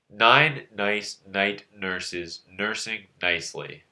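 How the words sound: It is said with the nose held shut.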